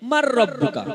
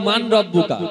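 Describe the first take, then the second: First: The n merges into a doubled r sound. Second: The first word ends with a clear n sound. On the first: The speaker calls it right. "রয়টা দুবার উচ্চারণ হয়" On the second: The speaker calls it wrong. "আমরা সবাই বলি মান রব্বুকা কিন্তু কথা কিন্তু মান নয়"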